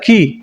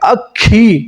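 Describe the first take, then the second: First: The middle k sound is short and light. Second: The middle k sound is held long and strong. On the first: Listeners may not understand the word. The speaker calls it wrong. "अकी उच्चारण में अटपटा सा लगेगा" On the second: Listeners will understand the word. The speaker calls it right. "इसी प्रकार से उच्चारण करोगे अखी, तो अगला समझ जाएगा"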